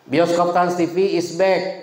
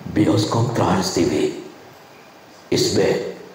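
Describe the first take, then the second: First: It is said in a high-pitched voice. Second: It is said in a medium-pitched announcer voice. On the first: The speaker calls it wrong. "Orang high voice nggak bisa ngomong kayak gitu" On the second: The speaker calls it right. "Ketika Anda menggunakan medium voice"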